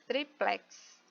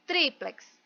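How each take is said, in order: First: Triplex with the last syllable plex stressed, said softly. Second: Triplex with the first syllable tri hit hard; stress on TRI. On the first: Teacher shows the class the unaccented form, stressing PLEX. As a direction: lean on plex in triplex, quietly. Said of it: "sem acento vai ser plex". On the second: Teacher shows the class where the stress falls, TRI. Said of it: "a sílaba forte vai ser tri". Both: Shown as a demonstration.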